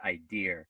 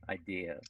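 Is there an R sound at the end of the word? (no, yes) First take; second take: yes; no. First: The word ends with an added R sound. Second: The word ends in a vowel without R. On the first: The speaker calls it wrong. "make a mistake and add an R to it" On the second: The speaker calls it right. "you both should say idea"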